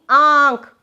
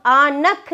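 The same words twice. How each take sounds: First: आँख said with a nasalised आ and no spoken n; आँख, nasal vowel, no n sound; nasal vowel demo. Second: आनख said slowly with a full n before ख; आनख, the n spoken out as a wrong example; wrong n sounded. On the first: (आँख नाक से, नून बोले बिना) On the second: (गलत तलफ़्फ़ुज़: आनख, नून साफ़ बोलकर) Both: Shown as a demonstration. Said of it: "आनख नहीं".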